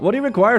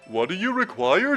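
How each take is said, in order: First: It is read in the speaker's natural voice. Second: It is read in a put-on character voice.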